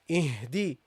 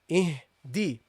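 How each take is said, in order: First: The vowel after the d sounds like i. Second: The vowel after the d sounds like i.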